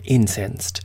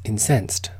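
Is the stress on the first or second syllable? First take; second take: first; second. First: The stress is on the first syllable. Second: The stress is on the second syllable. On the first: Perfumed like a temple offering. The speaker calls it wrong. "rather than incensed, like a temple offering" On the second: Enraged. The speaker calls it right. "as in enraged"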